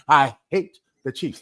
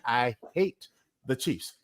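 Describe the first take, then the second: First: It is said with strong emphasis on a word. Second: It is said plainly, without strong emphasis. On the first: "Let me emphasize the word" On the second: "Did I say that right?"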